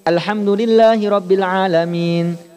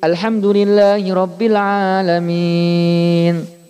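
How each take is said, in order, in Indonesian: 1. Vokal sebelum n terakhir ditahan dua ketukan. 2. Vokal sebelum n terakhir ditahan enam ketukan. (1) "Ini dua semuanya, Pak" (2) "Atau ambil enam, boleh"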